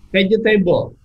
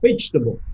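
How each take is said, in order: First: It uses an Indonesian-style reading of the word. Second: It uses a native English reading of the word. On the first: The speaker calls it wrong. "kan saya juga dulu mengucapkannya vegetable" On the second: The speaker calls it right. "dia bilang vegetable"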